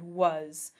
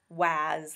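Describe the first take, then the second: First: The vowel is a short 'uh' sound. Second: The vowel is an open 'ah' sound. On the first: This is how the word is pronounced today. "over time it evolved to be pronounced with more of an uh sound" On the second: This is how the word used to be pronounced. "it used to be pronounced much more like waz, waz, like ah"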